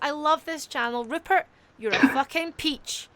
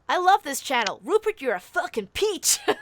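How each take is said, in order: First: It is read in the speaker's usual non-American accent. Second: It is read in a put-on American accent.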